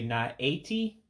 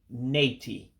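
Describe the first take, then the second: First: Both vowels are pronounced as separate syllables. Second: The A is dropped, merging into one word. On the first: The speaker calls it wrong. "looks like you would say not eighty" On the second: The speaker calls it right. "it's actually nati, because you dropped the A"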